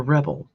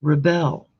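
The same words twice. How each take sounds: First: "rebel" said REB-el, stress on the first syllable; pronounced as a noun. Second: "Rebel" said ri-BEL, stress on the second syllable; pronounced as a verb. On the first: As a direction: say "rebel" as REB-ul, leaning on the start. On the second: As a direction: say "Rebel" as ri-BEL, leaning on the end. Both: Shown as a demonstration. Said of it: "depending on how you want to look at it".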